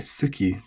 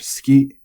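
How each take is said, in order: First: The accent falls on the first syllable. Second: The accent falls on the second syllable. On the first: The speaker calls it wrong. "you can't exactly say suki" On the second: The speaker calls it right. "remember to keep this accent on the ki"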